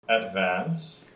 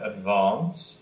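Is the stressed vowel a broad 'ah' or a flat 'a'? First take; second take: flat a; broad ah. First: The stressed vowel is a flat front 'a'. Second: The stressed vowel is a broad open 'ah'. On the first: This is the American way of saying it. "where we have that flat A, A, in words like advance" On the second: This is the British way of saying it. "They, of course, have advance"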